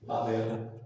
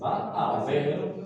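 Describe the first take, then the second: First: The words run together in one quick go. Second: The three words are said separately and distinctly. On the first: "se pronuncian de un solo jalón" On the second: "en realidad son tres palabras"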